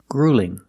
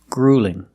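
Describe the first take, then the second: The two takes are said the same way.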